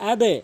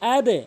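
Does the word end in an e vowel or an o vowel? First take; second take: e vowel; e vowel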